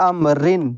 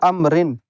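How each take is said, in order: Both takes have the same delivery.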